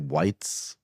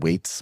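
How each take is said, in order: First: The vowel sounds like the one in 'white'. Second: The vowel sounds like the one in 'weight'. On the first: The speaker calls it wrong. "Some people say whites" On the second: The speaker calls it right. "You said weights, which is what it is"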